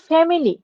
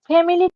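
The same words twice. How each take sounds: First: The vowel after the m is pronounced. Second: The vowel after the m is pronounced.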